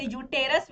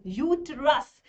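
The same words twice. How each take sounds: First: यूटेरस said as yoo-TE-rus; yoo-TE-rus, a full vowel after the t; alternative pronunciation. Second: यूट्रस said slowly as YOO-trus; YOO-trus, drawn out in two beats; two-syllable pronunciation. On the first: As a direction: say यूटेरस in three syllables, with "te". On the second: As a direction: say यूट्रस with no vowel between t and r. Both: Shown as a demonstration. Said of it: "कुछ लोग इसे यूटेरस भी कहते हैं".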